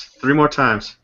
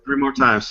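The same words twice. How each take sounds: First: Said in the usual way. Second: High teasing. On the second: Shown as a demonstration.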